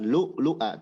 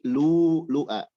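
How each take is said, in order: First: A glottal stop follows the short first vowel. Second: The first vowel is long, with no glottal stop. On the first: The speaker calls it wrong. "Bukan lu lu'a" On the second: The speaker calls it right. "tapi lu lu'a. Jadi mad dua harokat"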